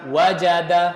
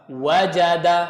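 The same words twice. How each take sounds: The two takes are said the same way.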